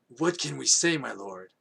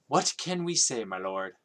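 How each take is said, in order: First: It is said in a horsey character voice. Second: It is said in a different character voice.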